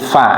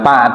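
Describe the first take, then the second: First: The syllable starts with an f sound. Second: The syllable starts with a p sound. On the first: The speaker calls it right. "tapi fa" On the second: The speaker calls it wrong. "jangan pa"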